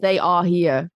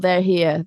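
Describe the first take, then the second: First: Each word is said fully and separately. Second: The words run together into one smooth chunk. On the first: "it actually means they are here" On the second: "we tend to put words together"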